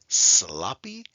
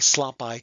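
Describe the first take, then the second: First: The final y sounds like 'ee'. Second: The final y sounds like 'eye'. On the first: The speaker calls it right. "it now usually sounds like an E" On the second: The speaker calls it wrong. "We don't say"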